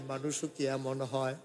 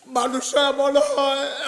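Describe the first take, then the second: First: Low, soft question; hushed wondering. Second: Chanted, high, slowed preaching cry; chanted wonder. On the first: Preacher marvelling at such a person, low hushed wonder. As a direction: ask it softly, dropping the voice. Low take before chanted repeat. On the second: Preacher marvelling at such a person, high chanted wonder. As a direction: chant it out on a raised pitch. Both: Real, not acted.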